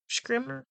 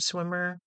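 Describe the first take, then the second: First: The name begins with an sh sound. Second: The name begins with a plain s sound. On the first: The speaker calls it right. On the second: The speaker calls it wrong.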